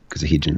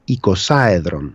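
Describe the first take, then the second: First: It is said with an h sound before 'edron'. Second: It is said with no h sound before 'edron'.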